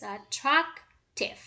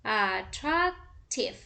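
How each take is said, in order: First: "attractive" said slowly, the stressed syllable marked, with a falling end; slow teacher model of "attractive" for marking stress; stress demo. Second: "attractive" said slowly, syllable by syllable, with a falling end; slow teacher model of "attractive" for counting syllables; syllable demo. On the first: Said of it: "mark where is the stress". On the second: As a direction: stretch out "attractive" so each syllable can be counted. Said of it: "like in this way". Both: Shown as a demonstration.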